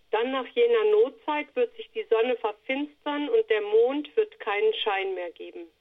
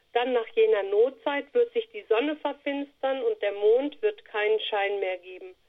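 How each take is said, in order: No difference in how they are said.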